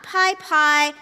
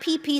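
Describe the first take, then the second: First: It is said as pie-pie. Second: It is said as pee-pee. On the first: "not pie pie" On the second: "not P P. Some Americans say P P"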